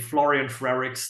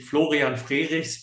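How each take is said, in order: First: The name is said with English pronunciation. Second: The name is said with German pronunciation. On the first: "but you can say" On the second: "the German pronunciation would be"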